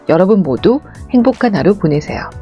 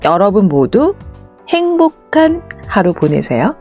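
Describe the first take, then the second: First: It is said flat at an even pace. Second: It mixes pauses with slower, varied pacing. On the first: The speaker calls it wrong. "밋밋하게는 이렇게" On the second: The speaker calls it right. "쉼과 느림을 적절하게 섞어서"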